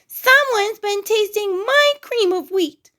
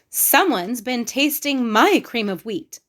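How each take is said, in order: First: It is said in a wee little voice. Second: It is said in a middle-sized voice.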